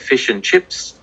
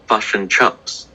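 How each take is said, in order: First: The vowels sound like a plain short i. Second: The i vowels sound a little like u. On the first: "so we have fish and chips" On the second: "they would say fush and chups. So the I sounds a little bit like a U"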